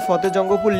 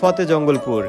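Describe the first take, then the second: First: The name is said without an l sound. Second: The name is said with an l sound. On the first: This is how the name is written. "কাগজে কলমে ফতেজঙ্গপুর লিখলেও" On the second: This is how local people say the name. "তারা মুখে উচ্চারণ করে ফতেজঙ্গলপুর"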